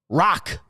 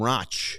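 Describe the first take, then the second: First: The name ends in a hard k sound. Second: The name ends in a soft ch sound. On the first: The speaker calls it right. "It's Rock" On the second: The speaker calls it wrong. "which is not correct. I, for some reason, didn't think it was hard K at the end"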